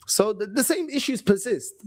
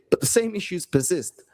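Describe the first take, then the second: First: Hushed whisper, pressing the point. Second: Said in the usual way. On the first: Real, not acted. Fan whispering that the same issues persist. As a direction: breathe it out like a secret warning. Repeating his point about recurring problems.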